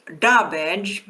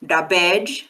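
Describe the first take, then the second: First: "dabej" as DA-bej, first syllable strong; stress on DA. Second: "dabej" as da-BEJ, second syllable strong and rising; stress on BEJ. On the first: Klingon lesson on root meaning, "dabej" stressed on da. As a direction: hit the "da" in "dabej". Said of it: "So stress can be important in Klingon". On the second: Klingon lesson on prefix meaning, "dabej" stressed on bej. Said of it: "means you are certain of it". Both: Shown as a demonstration.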